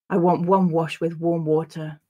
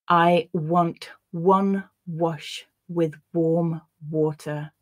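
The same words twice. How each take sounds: First: The sentence is read at normal conversational speed. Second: The sentence is read slowly and carefully. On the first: "then I'll read it once at a more natural pace" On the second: "I'll read the sentence once slowly"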